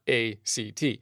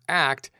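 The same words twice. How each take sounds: First: It is spelled out letter by letter. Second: It is said as a single word. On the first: The speaker calls it wrong. "not A-C-T" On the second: The speaker calls it right. "it's pronounced like the word ACT"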